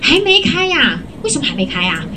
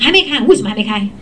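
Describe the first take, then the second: First: It sounds warm and lightly surprised. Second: It sounds flat and blunt. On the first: The customer is expected to open soon. The speaker calls it right. "像我就会说" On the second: The customer is being challenged. The speaker calls it wrong. "不要讲说"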